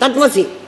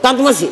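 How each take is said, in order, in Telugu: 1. పదాలను వేగంగా కలిపి ఒకే మాటగా చెప్తారు. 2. పదాలను వేగంగా కలిపి ఒకే మాటగా చెప్తారు.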